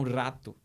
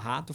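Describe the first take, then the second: First: The R sound is forced and exaggerated. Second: The R sound is said plainly. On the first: The speaker calls it wrong. "Forçam a letra R" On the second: The speaker calls it right. "ao invés de falar rato"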